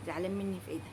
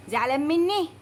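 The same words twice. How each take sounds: First: Much softer, low incredulous mutter; muttered aside. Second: Said in the usual way. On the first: Acted. Customer muttering at the courier, much softer. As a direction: grumble it half to herself. Repeats it again under her breath.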